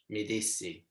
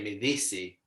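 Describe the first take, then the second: First: The word dissi starts with a plain d sound. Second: The word dissi starts with a th-like sound. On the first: "they don't say de" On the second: "they say mi dissi because this is the Irish accent in Italian"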